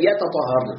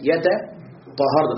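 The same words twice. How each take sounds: First: Said in the usual way. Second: "يتطهرن" drawn out slowly syllable by syllable; slow demonstration. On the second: Shown as a demonstration. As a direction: spell out "يتطهرن" slowly to show the ت before ط. ("يتطهرن" ببطء مقطعًا مقطعًا) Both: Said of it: "أصلها ماذا؟".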